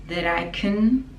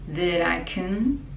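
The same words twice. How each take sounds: No difference in how they are said.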